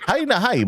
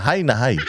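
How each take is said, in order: First: High, soft teasing repeat; mocking high. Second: Said in the usual way. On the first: Shown as a demonstration. Vlogger teasing the high president, soft and high-pitched. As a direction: lift it up in a teasing coo.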